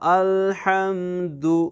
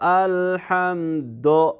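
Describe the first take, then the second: First: The final vowel is a clear, short 'u'. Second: The final vowel is a vague, 'o'-like sound. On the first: The speaker calls it right. "आपने पढ़ना था" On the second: The speaker calls it wrong. "लेकिन आपने पढ़ा"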